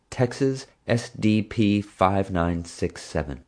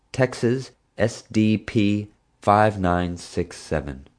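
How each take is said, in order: First: Slow dictation, every letter and digit spaced; dictating a plate. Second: Slow, each digit set apart; memorizing a plate. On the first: Acted. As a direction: read the plate slowly so she can write it. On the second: A narrator's reading. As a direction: spell the plate out slowly as if memorizing it.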